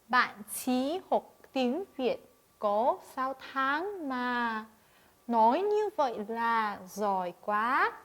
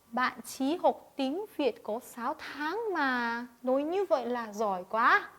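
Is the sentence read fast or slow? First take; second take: slow; fast. First: The sentence is read slowly and carefully. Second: The sentence is read quickly and naturally. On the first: "천천히 읽어보도록 할게요" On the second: "조금 자연스럽게 빨리 읽어보도록 할까요?"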